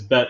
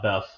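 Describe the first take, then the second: First: The word ends in a plain t sound. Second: The word ends in a th sound. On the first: The speaker calls it right. "it's Bet" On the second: The speaker calls it wrong. "not Beth"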